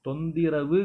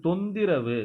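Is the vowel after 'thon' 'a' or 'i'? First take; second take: i; i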